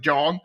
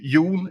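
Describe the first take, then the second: First: The name is said with an English pronunciation. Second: The name is said with a Swedish pronunciation. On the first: "I've always said John because it's just easier" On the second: "It's actually Jon in Swedish"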